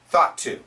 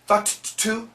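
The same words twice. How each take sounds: First: The two t sounds join into one. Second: Both t sounds are released separately. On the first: The speaker calls it right. "T T, connect it. Keep the second sound" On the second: The speaker calls it wrong.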